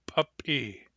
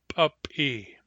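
No difference in how they are said.

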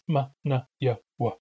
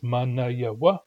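First: The consonants are made with a glottal catch. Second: The consonants are plain, with no glottal catch. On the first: "as well as hard resonance" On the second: "So we have plain resonance"

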